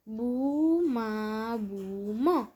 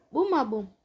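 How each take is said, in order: First: બુ, મા, બુ, મ each drawn out slowly; long held syllables in બુ, મા, બુ, મ. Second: Said in the usual way. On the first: Shown as a demonstration. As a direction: sound out બુ, મા, બુ, મ one syllable at a time. Syllable-by-syllable reading, then whole word.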